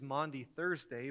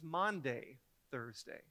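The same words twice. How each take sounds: First: The first word has an 'aw' vowel. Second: The first word sounds like 'Monday'. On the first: The speaker calls it right. "Today is Maundy Thursday" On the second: The speaker calls it wrong. "I thought it was Maundy Thursday. I always heard it wrong"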